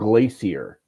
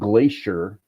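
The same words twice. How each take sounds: First: The word is said following its spelling. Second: The word is said the usual, common way. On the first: This is how the written word looks. "but it's spelled glacier" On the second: This is how people actually say it. "It's it's always pronounced glacier"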